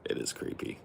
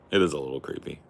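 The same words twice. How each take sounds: First: Breathy spooky whisper. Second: Said in the usual way. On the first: Shown as a demonstration. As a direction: whisper it like a secret. Whispered, then said again.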